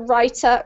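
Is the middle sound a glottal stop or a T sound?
T sound. The middle consonant is a clear T. "in the U K accent, we pronounce the T usually"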